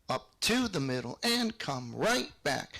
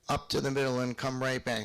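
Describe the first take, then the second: First: The emphasis falls on the upbeat. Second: The emphasis falls on the downbeat.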